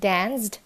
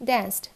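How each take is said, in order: First: "danced" with a voiced ZD; wrong D ending. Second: "danced" with a voiceless ST; crisp T closing "danced"; correct T ending. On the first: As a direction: say "danced" as "danzd". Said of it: "Not danced". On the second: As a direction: say "danced" as "danst". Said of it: "it's danced". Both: Shown as a demonstration.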